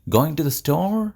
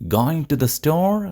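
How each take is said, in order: No difference in how they are said.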